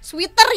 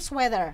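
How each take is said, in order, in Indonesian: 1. Dilafalkan dengan aksen bergaya Indonesia. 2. Dilafalkan dengan aksen bergaya Inggris. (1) "Kalau kita kan sweater ya" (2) "kalau sebetulnya dalam in English itu sweater"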